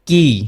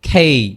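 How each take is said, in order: First: The k sound is plain, without a puff of air. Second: The k sound has a strong puff of air. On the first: The speaker calls it wrong. "But this is not কি" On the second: The speaker calls it right. "এটা হবে খি, খেই"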